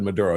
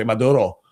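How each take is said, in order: First: Said in the usual way. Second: Mock Spanish "Maduro" with tapped r; Spanish accent. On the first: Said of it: "speak perfect in-, English". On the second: Host imitating Fox announcer saying the name, Spanish accent. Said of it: "except for when he was said Maduro".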